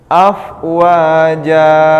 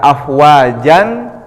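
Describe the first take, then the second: First: The word ends on a vowel without n. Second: The word ends with a final n sound. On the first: The reading stops at this word. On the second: The reading continues without stopping.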